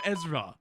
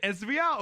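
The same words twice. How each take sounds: First: Ezra in two syllables, EZ-ruh; Ezra, ending in a plain ruh; name said as Ezra. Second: Ezria with an extra ee-ah ending; Ezria, stretched into ez-ree-ah; name said as Ezria. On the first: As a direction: say "Ezra" without the ee sound. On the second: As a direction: say "Ezria" in three syllables. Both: Shown as a demonstration. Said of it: "Is it Ezria or Ezra?".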